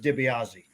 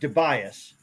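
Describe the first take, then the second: First: The surname has an Italian pronunciation. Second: The surname has an Americanized pronunciation. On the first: "the correct Italian pronunciation is DiBiase" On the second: "I pronounce it DeBias"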